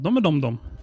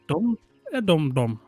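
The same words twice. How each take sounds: First: The phrase is spoken quickly. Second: The phrase is spoken slowly. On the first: "Say it quickly" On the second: "say it from the top and say it slowly"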